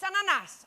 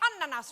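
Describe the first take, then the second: First: It is said with a Greek pronunciation. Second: It is said with a Finnish pronunciation. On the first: The speaker calls it right. "It's ananas" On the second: The speaker calls it wrong. "you also say ananas wrong"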